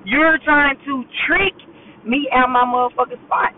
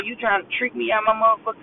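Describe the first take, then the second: First: "trick" drawn out slowly; slow, deliberate stress on "trick"; emphatic repeat. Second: Said in the usual way. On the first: Real, not acted. Vlogger calling out whoever is tricking her, emphatic stretch on "trick".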